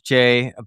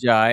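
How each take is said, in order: First: The name rhymes with 'day'. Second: The name rhymes with 'eye'. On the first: This is the name's intended pronunciation. "the actual pronunciation is Jay" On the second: This is how most people say the name. "Most people pronounce it Jai"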